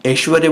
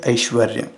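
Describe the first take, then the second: First: "ऐश्वर्य" as eshvarya, plain e; common mispronunciation. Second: "ऐश्वर्य" as aishvarya with a glide; correct pronunciation. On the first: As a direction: start "ऐश्वर्य" on e, no glide. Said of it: "हम ऐश्वर्य बोलते हैं". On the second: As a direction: voice both a and i opening "ऐश्वर्य". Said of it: "शुद्ध रूप क्या है?". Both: Shown as a demonstration.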